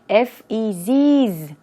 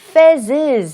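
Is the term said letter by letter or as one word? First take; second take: letter by letter; one word. First: Each letter is spoken separately. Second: It is pronounced as a single word. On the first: "F-E-Zs 이렇게 복수형으로 발음하거나" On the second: "Fezzes 이렇게 발음을 하게 되겠네요"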